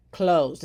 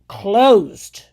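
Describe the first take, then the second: First: Said in the usual way. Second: Louder, punched single word; closed barked loud; emphatic. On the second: Real, not acted. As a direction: slam the word closed shut. Repeating closed at the critic.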